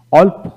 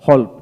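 First: অল্প begun on the open o vowel. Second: হল্প begun with an audible h; sounded H. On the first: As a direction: say অল্প as "olp", no h. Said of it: "আমেরিকানে অ উচ্চারিত". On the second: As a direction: say হল্প as "holp". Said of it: "ব্রিটিশে হ উচ্চারিত হয়". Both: Shown as a demonstration.

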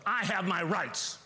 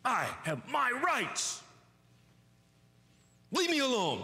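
First: Petulant demand. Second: Put-on higher, slow, drawn-out childish whine; whiny self-pity. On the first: Acted. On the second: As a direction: stretch it out like a sulking child. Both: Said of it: "the cry of self".

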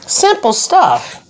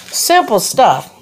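First: High, slow, drawn-out sing-song; a playful high sing-song on simple stuff. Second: Said in the usual way. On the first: Acted.

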